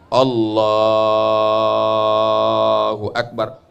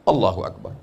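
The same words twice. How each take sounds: First: The takbir is drawn out long. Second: The takbir is said short and quick.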